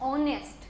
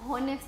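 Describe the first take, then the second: First: The word begins directly with a vowel. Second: The word begins with an h sound. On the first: The speaker calls it right. "ખરેખર ઓનેસ્ટ" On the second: The speaker calls it wrong. "હોનેસ્ટ pronunciation કરીએ છીએ"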